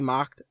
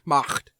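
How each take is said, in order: First: The final consonant is light, without throaty friction. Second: The final consonant is harsh, with strong throaty friction. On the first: "I don't say Macht" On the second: "I say Macht. You got to like really have the hairball going"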